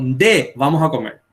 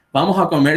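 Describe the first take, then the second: First: "Nde" said first as a casual call, then "vamos a comer"; Paraguayan nde call. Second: Said in the usual way. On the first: Shown as a demonstration. Teacher showing how Paraguayans call a friend to eat, casual call.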